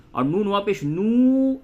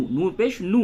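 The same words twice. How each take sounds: First: Stretched vowel. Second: نو with a brief u; short vowel. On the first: Teacher shows waw lengthening the vowel, stretched نو. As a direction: spell it out, then hold the final نو. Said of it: "یہ تھوڑا کھینچ کے ہو گیا". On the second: Teacher shows plain pesh read quickly, short نو. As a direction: spell it out, ending on a quick نو. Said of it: "صرف پیش ہے تو اسے جلدی سے ادا کریں". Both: Shown as a demonstration.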